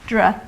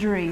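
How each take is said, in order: First: The syllable ends in a short vowel, not ee. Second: The syllable ends in a long ee vowel. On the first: The speaker calls it right. "the second syllable which is more important, Dre" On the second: The speaker calls it wrong. "rather than Dree"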